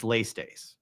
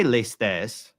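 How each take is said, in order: First: "lestes" wrongly stressed up front, LAY-stays; rejected pronunciation. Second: "lestes" as lay-STESS, slow and deliberate; older pronunciation. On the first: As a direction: punch the first syllable of "lestes", LAY-stace. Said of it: "what I won't say is". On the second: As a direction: stress the last syllable of "lestes", open e. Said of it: "it's not that I can't say". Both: Shown as a demonstration.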